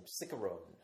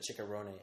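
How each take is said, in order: First: "Cicerone" as SICK-uh-rone; altered pronunciation. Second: "Cicerone" as chick-uh-RO-nee; proper pronunciation. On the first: Telling the phone the girlfriend's surname, "Cicerone" as SICK-uh-rone. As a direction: say "Cicerone" with an s, hard k, silent final e. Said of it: "you have to pronounce". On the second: Giving the girlfriend's real surname, "Cicerone" as chick-uh-RO-nee. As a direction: say "Cicerone" with ch and a voiced final ee. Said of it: "Instead of". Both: Shown as a demonstration.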